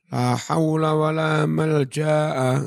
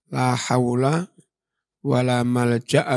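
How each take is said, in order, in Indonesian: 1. Vokal sebelum hamzah itu panjang. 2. Vokal sebelum hamzah itu pendek. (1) "Enggak begitu" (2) "Itu ya"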